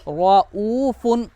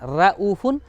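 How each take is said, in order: First: The r is heavy, with rounded lips. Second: The r is thin, with unrounded lips. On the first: The speaker calls it right. "रा को थोड़ा सा मोटा करना, मुंह को हल्का गोल करना" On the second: The speaker calls it wrong. "ये पतली हो जाएगी रा"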